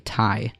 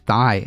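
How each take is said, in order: First: The word begins with a plain 't' sound. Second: The word begins with a 'th' sound. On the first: "pronounced like T A, like uh instead of like the T H" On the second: "it's possible that it's actually pronounced thigh"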